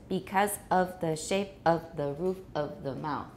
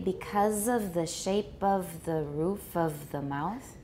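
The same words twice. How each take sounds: First: The words are separated in a choppy way. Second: The words are linked smoothly together. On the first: The speaker calls it wrong. "It sounds very choppy and it's not natural" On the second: The speaker calls it right. "Can you link a little more smoothly?"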